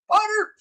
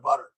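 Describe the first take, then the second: First: "butter" jumps up high and gleeful; excited high butter. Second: Said in the usual way. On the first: Real, not acted. Doctor to chat, delighting in butter, high squeal.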